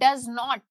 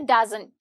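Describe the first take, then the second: First: Both words are said in full. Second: The words are contracted into one syllable group. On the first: "जैसे मैं बोलती हूँ डज नॉट" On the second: "casual way में कैसे बोलूंगी"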